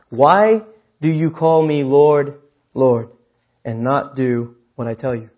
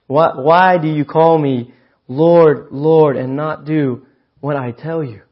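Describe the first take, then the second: First: Slow, weighty scripture read, hold each word; measured pulpit reading of Jesus' question; slow solemn reading. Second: Slow and louder, press hard on WHY; emphatic rereading, each word driven home; slower, stronger reread. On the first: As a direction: read it slow and grave, let it land. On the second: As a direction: lean into the question the second time. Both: Shown as a demonstration. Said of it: "I'll read it again".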